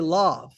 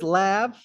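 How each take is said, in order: First: The word is said the French way. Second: The word is said in an anglicized way. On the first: "because it's a French word, and that's how you pronounce it in French" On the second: "Grant says lav"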